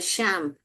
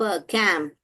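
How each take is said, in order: First: The word begins with a sh sound. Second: The word begins with a k sound. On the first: "श एम्प" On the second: "ये च को क जैसा पढ़ेंगे"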